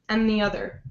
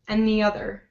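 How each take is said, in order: The two takes are said the same way.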